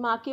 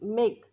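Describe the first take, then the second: First: The vowel is an 'ah' sound, with a final 'e'. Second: The vowel is an 'ay' sound, no final vowel. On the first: The speaker calls it wrong. "आपण माके बोलतो का नाही" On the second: The speaker calls it right. "एचा उच्चार काय होतो ए"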